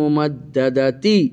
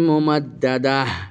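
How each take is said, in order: First: The word ends with a t sound and vowel. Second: The word ends with a soft h sound. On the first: The reading continues without stopping. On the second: The reading stops on this word.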